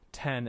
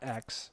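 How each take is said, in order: First: The name is said as the number ten. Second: The name is said as the letter ex. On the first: The speaker calls it right. "that is the correct way of pronouncing the iPhone ten" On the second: The speaker calls it wrong. "not X"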